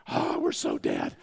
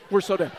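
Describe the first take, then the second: First: Slow, low groan of doom; hammed-up sinking realization; mock dread. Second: Louder, higher repeat of doom; hammed-up cry of being doomed; mock alarm. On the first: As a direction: drag it out as if doomed. Dad realizing doom, acted. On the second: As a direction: punch it out in mock panic.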